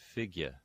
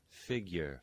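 First: The word ends with a plain schwa, no R. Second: The word ends with an R-colored vowel.

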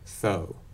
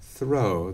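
First: The R sound after th is left out. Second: The R sound after th is clearly pronounced. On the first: "a lot of folks remove R in th-r sequences" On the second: "instead of throw"

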